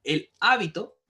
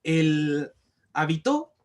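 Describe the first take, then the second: First: "hábito" with the voice loaded on HÁ; stress on first syllable. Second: "habitó" with the voice loaded on TÓ; stress on last syllable. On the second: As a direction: punch the final syllable of "habitó". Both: Shown as a demonstration. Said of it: "donde nosotros cargamos la voz".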